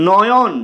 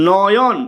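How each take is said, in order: No difference in how they are said.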